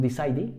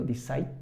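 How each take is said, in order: First: "decide" with an extra last syllable, "dee-sigh-dee"; final E sounded. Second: "decide" ending on the consonant, final E silent. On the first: Teacher showing students the mistake, "decide" with E sounded. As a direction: sound the silent E at the end of "decide". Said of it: "No decimos decide". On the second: Teacher correcting the mistake, "decide" with silent E. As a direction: say "decide" in two syllables, no vowel after the D. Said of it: "la silent E". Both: Shown as a demonstration.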